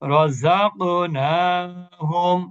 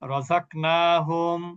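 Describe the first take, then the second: First: The stopped consonant ends with a short echoing bounce. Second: The stopped consonant ends quietly with no bounce. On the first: The speaker calls it right. "যখন কলকলা হবে তখন কিভাবে পড়বো?" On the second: The speaker calls it wrong. "এটা কিন্তু কলকলা ছাড়া পড়লাম"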